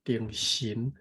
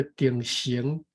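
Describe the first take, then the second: First: 定神 with 神 as SIN, ending in n; correct pronunciation. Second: 定神 with 神 as SENG, ending in ng; mispronunciation demo. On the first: Correcting the partner, 定神 pronounced with SIN. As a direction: say 定神 with a clean final n. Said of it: "神是S I N". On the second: Showing the partner the slip, 定神 mispronounced as SENG. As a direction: show 定神 wrongly said with SENG. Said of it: "你读S E N G". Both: Shown as a demonstration.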